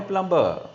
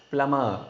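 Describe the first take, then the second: First: Plumber with the B sounded after M; wrong pronunciation. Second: Plumber as "plummer", no B sound; silent B. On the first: Teacher warning learners off the error, plumber with B sounded. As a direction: say plumber with an audible B in the middle. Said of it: "It is not a plumber". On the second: Teacher showing learners the rule, plumber with silent B. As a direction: say plumber with only M in the middle. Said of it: "B is a silent word". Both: Shown as a demonstration.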